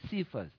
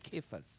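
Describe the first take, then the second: First: The name is said the English way. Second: The name is said the Greek way. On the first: "that's the English version of Kephas" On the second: "In Greek word, it's Kephas"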